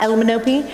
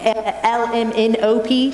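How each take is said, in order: First: The letters are slurred together into one word. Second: Each letter is said clearly and separately. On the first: The speaker calls it wrong. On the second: The speaker calls it right. "as a diction exercise so that they sing"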